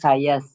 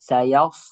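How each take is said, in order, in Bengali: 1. প্রথম s টি সাধারণ, পাতলা ধ্বনি। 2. প্রথম s টি ভারী, জোরালো ধ্বনি। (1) "আর যদি সিন থাকতো তাহলে আমরা বলতাম সায়াস" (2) "সিন না, এটা সদ।"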